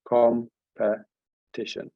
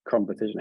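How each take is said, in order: First: Competition drawn out slowly, each syllable set apart; syllables counted out slowly. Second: Said in the usual way. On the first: Shown as a demonstration. Teacher counting syllables for the class, slow and drawn out. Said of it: "that's three, I make it". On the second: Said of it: "how many is that".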